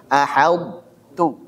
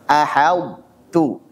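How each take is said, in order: No difference in how they are said.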